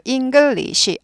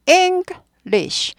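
First: English spelled out slowly as ing-geul-li-shi; every syllable of English full, vowel after sh; four-syllable English. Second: English split high as ENG, then lish; English in two beats, voiceless sh at end; two-syllable English. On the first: Teacher showing the wrong count, four-syllable English. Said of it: "English 아닙니다". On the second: Teacher correcting the syllable count, two-syllable English. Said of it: "이 음절이에요". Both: Shown as a demonstration.

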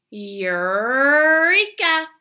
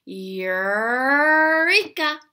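First: Slow, loud "Eureka" with the tongue pulled back. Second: Slow, loud "Eureka" with a strongly retracted R; tongue pulled back. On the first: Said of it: "This means we say". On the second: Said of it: "So we're gonna pull our tongues back". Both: Shown as a demonstration.

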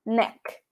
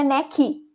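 First: Neck. ending cleanly on the k, no extra i; clipped English neck with no vowel after k; correct neck. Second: Neck said as "necky" with a trailing i sound; the Brazilian mistake, adding an i after neck; wrong neck with extra I. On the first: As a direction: swallow the i and stop dead on the k of Neck. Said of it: "engole esse I e fala neck". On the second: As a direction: Brazilian learner's neck ending in i. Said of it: "porque não tem um I no final". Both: Shown as a demonstration.

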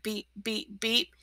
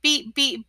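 First: Beep, beep said much softer, trailing off; narrator's hushed beep, beep. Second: Beep, beep like a stuck truck calling for help; a hint of a truck horn. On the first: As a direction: tuck the beeps away quietly. Narrator retells the beeps. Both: A narrator's reading.

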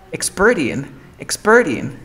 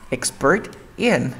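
First: Expert in as "exper-in"; "expert in" run together, no T; linked reduction. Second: Expert in slowly, T sounded; "Expert in" unlinked, slow; separate words. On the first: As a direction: link "expert in" dropping the T. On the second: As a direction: say "Expert" then "in" apart. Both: Shown as a demonstration. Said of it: "Podemos linkear".

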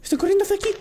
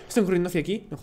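First: Alarmed high. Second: Hushed low. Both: Real, not acted. Mannequins approaching, repeated lower.

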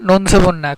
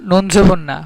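Both takes have the same delivery.

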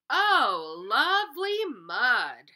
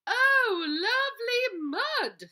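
First: Lightly voiced cow, big loud delight; a cow loving the mud, with a loud happy "Oh". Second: Very high squealing pig voice, loud and drawn out. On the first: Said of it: "said the cow". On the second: Acted. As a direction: squeal it like a pig thrilled with mud. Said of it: "said the pig".

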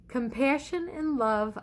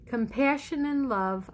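The two takes are said the same way.

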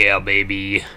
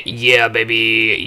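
First: Said in the usual way. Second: Excited. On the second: Real, not acted. Celebrating victory.

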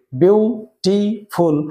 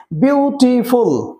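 First: beautiful chopped into বিউ, টি, ফুল with pauses; three separate syllables. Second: beautiful said slowly, its three syllables stretched but linked; drawn-out syllables. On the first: Teacher showing where the tongue stops, beautiful in three separated beats. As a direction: stop after each syllable of beautiful, very slowly. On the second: Teacher introducing a three-syllable example, beautiful slow and drawn out. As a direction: stretch beautiful slowly through বিউ-টি-ফুল. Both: Shown as a demonstration. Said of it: "এখানে তিনবার জিভ থামছে".

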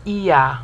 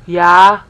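First: "Iya" as two syllables, i then ya; split syllables. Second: "Ya" punched out loud with a y glide; single-syllable Ya; yo sound. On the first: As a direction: separate the i from the ya. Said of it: "instead of". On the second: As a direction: say "Ya" firmly, one syllable. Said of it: "instead of Iya". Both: Shown as a demonstration.

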